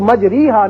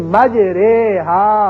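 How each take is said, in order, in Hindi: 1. 'majr' के बाद का स्वर लंबी 'ee' है। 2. 'majr' के बाद का स्वर मध्यम 'e' है। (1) "इसको मजरीहा नहीं पढ़ेंगे" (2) "बल्कि मजरेहा"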